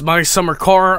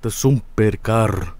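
First: It is said in his ordinary accent. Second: It is said in a put-on Finnish accent.

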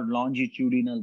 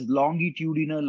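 First: The word is said with a British pronunciation. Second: The word is said with an American pronunciation. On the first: "American and British pronunciations" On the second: "American and British pronunciations"

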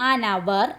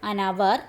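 No difference in how they are said.

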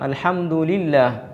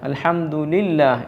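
The two takes are said the same way.

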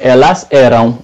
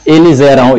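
First: The words are said slowly and apart. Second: The words are said fast, joined by a z.

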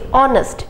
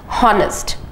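First: The word starts with a vowel, no H sound. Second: The word starts with an audible H sound. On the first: The speaker calls it right. "the H is silent. So we say honest" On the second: The speaker calls it wrong. "we don't say honest"

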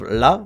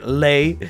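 First: The vowel sounds like 'ah' in father. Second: The vowel sounds like 'ay' in day. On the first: "in meme culture, it's pronounced la" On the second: "I think it's way funnier to say lay"

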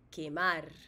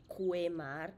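First: The u after the q is silent. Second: The u after the q is sounded. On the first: The speaker calls it right. "U-E with a silent U as in the word quemar" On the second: The speaker calls it wrong. "You don't say quemar"

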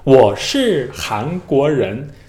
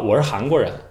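First: Every tone is fully and carefully articulated. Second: The tones are relaxed as in casual speech. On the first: This is how a learner chasing perfect tones speaks. The speaker calls it wrong. "他们做自我介绍的时候就这样讲" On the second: This is how native speakers naturally talk. The speaker calls it right. "大家怎么说呢"

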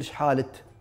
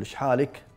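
First: The last word ends with a t sound. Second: The last word ends with a k sound. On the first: "بالتاء" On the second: "بالكاف"

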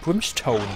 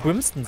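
First: The last syllable sounds like English 'stone'. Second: The last syllable is a short 'ston'. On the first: The speaker calls it right. "obwohl es Brimstone heißt" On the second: The speaker calls it wrong. "dass ich immer Brimston sage"

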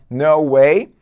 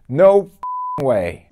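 First: It is said plainly, with normal intensity. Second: It is said with more intensity and force.

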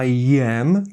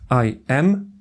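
First: The two words are joined by a y-like glide. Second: The two words are said separately with a break. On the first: The speaker calls it right. "łączy nam te dwa słowa dźwięk i" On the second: The speaker calls it wrong. "nie staramy się tych słów tak sztucznie dzielić"

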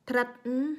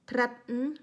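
Both takes have the same delivery.

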